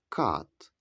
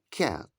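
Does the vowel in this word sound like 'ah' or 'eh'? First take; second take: ah; eh. First: The vowel is an open 'ah' sound. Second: The vowel is an 'eh' sound. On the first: The speaker calls it wrong. "тут ми не кажемо «кат», так як Матео чи Катя" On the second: The speaker calls it right. "Ми кажемо «кет». Буква «ей» позначає звук «е»"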